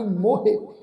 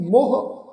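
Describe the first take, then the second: First: ਮੋਹੇ in two syllables, "mo-hey"; ਮੋਹੇ said as "mo-he", lifting at the end; ਮੋਹੇ with final vowel. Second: ਮੋਹ as a single "moh" syllable; ਮੋਹ closed off after the o; ਮੋਹ without final vowel. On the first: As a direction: pronounce the "he" ending of ਮੋਹੇ. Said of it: "ਇਹ ਸ਼ਬਦ ਦਾ ਉਚਾਰਨ ਆ ਜੀ". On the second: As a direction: say ਮੋਹ with no "he" ending. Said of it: "ਇਸ ਢੰਗ ਨਾਲ ਉਚਾਰਨ ਨਹੀਂ ਕਰਨਾ". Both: Shown as a demonstration.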